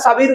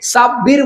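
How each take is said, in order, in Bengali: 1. "b" ধ্বনিটি একক এবং হ্রস্ব। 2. "b" ধ্বনিটি দ্বিত্ব এবং দীর্ঘ করে উচ্চারিত হয়। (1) "ওরা সাবির বলে" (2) "জীবনেও সাব্বির বলে না"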